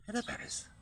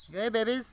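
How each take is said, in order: First: Whispered high hello; soft talk. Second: High sing-song call to the babies; baby talk. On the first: Showing the soft voice the pigeons prefer, whispered. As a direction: breathe it out gently to the birds. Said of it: "soft noise, they like better". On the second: Showing the viewer how to greet the pigeons, high coo. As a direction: show how you'd coo to them. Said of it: "Maybe you might talk like this". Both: Shown as a demonstration.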